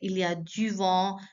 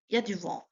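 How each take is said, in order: First: The full form with 'il' is pronounced. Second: The opening 'il' is dropped in speech. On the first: This is the complete form used in writing. The speaker calls it wrong. "French people never say like" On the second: This is how native speakers say it casually. The speaker calls it right. "Instead of that, they just say"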